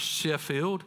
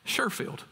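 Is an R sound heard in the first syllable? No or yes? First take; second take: no; yes. First: The first syllable has no R sound. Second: The first syllable has an R sound.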